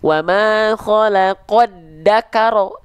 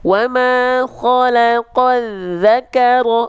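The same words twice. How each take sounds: First: The consonant is said as a plain d. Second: The consonant is said as a th-like sound. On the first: The speaker calls it wrong. "jangan sampai huruf zal dilafalkan" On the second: The speaker calls it right.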